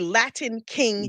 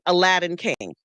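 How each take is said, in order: First: It is said plainly as Latin King. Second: It is said to sound like Aladdin King. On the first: The speaker calls it right. "Latin king because Luis is a was a Latin King" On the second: The speaker calls it wrong. "Daniel Rashbaum pronounced it Aladdin King"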